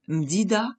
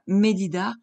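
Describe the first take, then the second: First: No vowel is heard between m and d. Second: A short vowel is heard between m and d. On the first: The speaker calls it wrong. "le sheva indique une absence de voyelle" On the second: The speaker calls it right. "on préfère medida par confort auditif"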